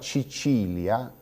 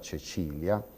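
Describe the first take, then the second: First: The first vowel matches the stressed vowel. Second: The first vowel differs from the stressed vowel. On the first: This is the regional Sardinian form. "L'armonizzazione totale è quella che sentiamo" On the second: This is the standard form. "in luogo della"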